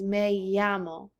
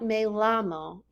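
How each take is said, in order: First: The double L is said as a Y sound. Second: The double L is said as an L sound. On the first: The speaker calls it right. "the double L sounds just like a Y" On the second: The speaker calls it wrong. "It is not me llamo"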